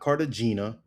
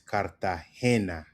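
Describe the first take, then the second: First: The stress is not on the third syllable. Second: The stress is on the third syllable. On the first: The speaker calls it wrong. "It's not" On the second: The speaker calls it right. "Emphasis on the he"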